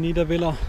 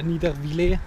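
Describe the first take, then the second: First: Niederviller with a short, German "-villa" ending; German pronunciation. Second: Niedervillers ending in a rising "-vilé"; French-style pronunciation. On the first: Driver arriving in Alsace, trying Niederviller the German way. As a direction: pronounce Niederviller German-style, last syllable an unstressed "-a". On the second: Driver unsure how Alsace says it, Niedervillers tried French-style. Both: Shown as a demonstration. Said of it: "wie man's jetzt richtig ausspricht".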